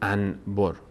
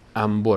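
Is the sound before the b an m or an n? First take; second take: n; m. First: The sound before b is a clear n. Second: The sound before b is an m. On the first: The speaker calls it wrong. "نمیگیم انبر" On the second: The speaker calls it right. "انبر میگیم"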